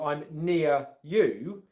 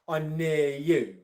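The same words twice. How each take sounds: First: A short pause separates near from you. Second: Near runs straight into you without a break. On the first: "where I put a pause in between" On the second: "where I'm joining it to the next word that comes afterwards"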